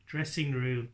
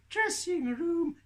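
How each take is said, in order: First: Said in the usual way. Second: Very high, stretched-out squeak; sing-out slowly in a tiny puppet voice; puppet Tilly. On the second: Acted. Puppet insists on the nicer name, high slow voice. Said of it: "You used the wrong voice".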